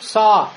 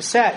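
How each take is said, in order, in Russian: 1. Звук толстый и тяжёлый, с задним гласным. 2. Звук тонкий и лёгкий, с передним гласным. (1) "Не говорим са" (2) "говорим са"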